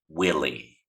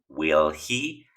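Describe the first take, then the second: First: The words blend into one reduced form. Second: Both words are said fully and separately. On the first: "vas a escuchar willy" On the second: "En lugar de que escuches la pronunciación will he"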